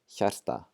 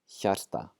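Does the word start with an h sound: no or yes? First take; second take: yes; yes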